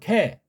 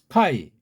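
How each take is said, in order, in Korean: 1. 이 단어는 단순한 e 모음으로 끝나요. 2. 이 단어는 ai 이중모음으로 끝나요.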